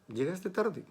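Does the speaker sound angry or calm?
calm. It is said calmly, without anger.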